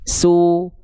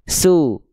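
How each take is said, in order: First: The lips are pushed forward and rounded. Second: The lips stay slack and barely rounded. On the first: The speaker calls it right. "muncungkan mulutnya" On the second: The speaker calls it wrong. "Jangan cuman kayak orang lagi sariawan, orang kayak orang lagi sakit gigi"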